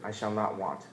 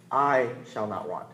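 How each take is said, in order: First: Said in the usual way. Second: "I" drawn out slowly before the rest; stress on "I". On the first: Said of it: "when you say it out loud". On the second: Shown as a demonstration. Preacher showing which word to emphasize, stress on "I". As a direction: hold and lean on "I". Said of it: "Then emphasize the word "I".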